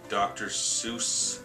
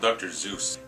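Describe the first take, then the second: First: The name begins with an S sound. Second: The name begins with a Z sound. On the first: "Is that how you pronounce it?" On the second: "I always call him Doctor Zeus"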